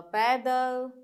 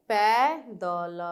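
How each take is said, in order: First: Said in the usual way. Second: पैदल drawn out slowly, split into syllables; teacher sounding out पैदल slowly. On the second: Shown as a demonstration.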